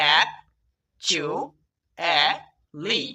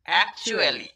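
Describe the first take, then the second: First: "actually" very slowly, in four separate syllables; long pauses between each syllable of "actually"; broken into syllables. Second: Said in the usual way. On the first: Shown as a demonstration. Teacher showing learners the word with LY added, syllable by syllable. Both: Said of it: "syllable ভেঙে ভেঙে".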